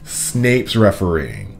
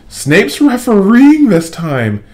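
First: Sputtering through a mouthful of mud; mouth full of mud. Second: Refereeing drawn out slow, much higher and louder; slow emphasis. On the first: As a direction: spit the words out past mud. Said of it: "he sputtered with a mouthful of mud". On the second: Wood warning his team about Snape, slow heavy stress on refereeing. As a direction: lean hard on refereeing, slowly. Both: A narrator's reading.

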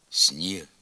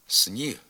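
First: «сніг» with с palatalized before ні; softened с. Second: «сніг» with с hard before ні; as written. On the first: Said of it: "а вимовляється". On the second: Teacher reading the spelling, hard с in «сніг». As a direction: say «сніг» with an unsoftened с. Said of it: "Пишеться". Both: Shown as a demonstration.

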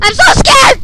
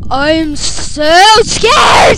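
First: High, loud frightened cry; scared cry. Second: Slow, drawn-out loud scream; demo scream. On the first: Real, not acted. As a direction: blurt out in real fear. Scared while playing. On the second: Shown as a demonstration. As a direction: scream it as loud and long as you can. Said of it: "But I scream loud".

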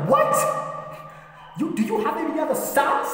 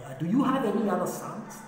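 First: Very high, incredulous demand; shocked wife. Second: Tentative question, pitched up; puzzled asking. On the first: Jesse's wife confronts him over other sons, shocked. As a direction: squeal the question in outraged disbelief. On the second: Samuel asks Jesse when the oil won't pour, puzzled. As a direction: ask it higher, without pushing. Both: Acted.

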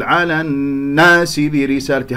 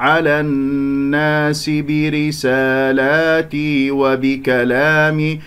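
First: على الناس with a punched stress on the doubled noon; misplaced stress. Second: Slow, even chant of على الناس with smooth hummed noon; sung, correct recitation. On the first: Teacher showing others' error, stressed noon in الناس. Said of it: "هكذا يجعل النبر". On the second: Teacher showing the correct way, smooth slow chant. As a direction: chant على الناس برسالاتي evenly, vowels open. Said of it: "يعني الصحيح". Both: Shown as a demonstration.

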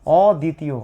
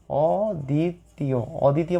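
First: Said in the usual way. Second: অদ্বিতীয় stretched very slowly, syllable by syllable; drawn-out word. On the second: Shown as a demonstration. Teacher spelling out অদ্বিতীয় for the class, slowly drawn out. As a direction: draw out অদ্বিতীয় slowly so students catch each sound. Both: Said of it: "অদ্বিতীয় শব্দটার মানে আমাদেরকে বুঝতে হবে".

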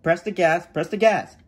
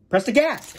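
First: Said in the usual way. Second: Raised, insistent instruction; exasperated prompt; impatient repeat. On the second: Acted. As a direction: prod the hesitant learner.

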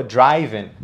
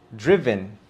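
First: "driven" mispronounced as "DRAI-ven"; wrong vowel. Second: "Driven" said as "DRIV-en", short i; correct pronunciation. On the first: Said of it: "el sonido de la vocal cambió por completo". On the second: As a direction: model "Driven" with the vowel of "give". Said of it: "sería así". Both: Shown as a demonstration.

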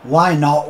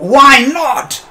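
First: Said in the usual way. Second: Real exasperated shout, higher and louder; frustrated cry. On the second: Real, not acted. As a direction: demand an answer from the game. Repeated in frustration.

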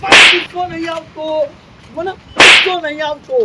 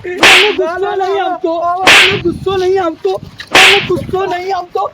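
First: Louder grumbling denial; angry repeat. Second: Louder furious denial, over and over; angry shouting. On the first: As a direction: insist again, still angry. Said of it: "આવે દાદા". (ગુસ્સાથી ફરી એ જ ઇનકાર) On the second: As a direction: hammer the same denial louder each time. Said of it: "આવે દાદા ... ગુસ્સો આવે તમને". (ગુસ્સામાં મોટેથી વારંવાર ઇનકાર) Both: Acted.

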